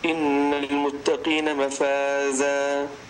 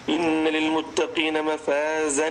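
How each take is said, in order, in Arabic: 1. تنتهي الكلمة الأخيرة بحرف مد طويل، دون نون. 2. تنتهي الكلمة الأخيرة بصوت نون واضح. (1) "لكن إذا وقفنا عليها فإن التنوين لا ينطق ... التنوين ذهب" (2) "إذا وصلناها فإن التنوين هنا يثبت ... التنوين واضح"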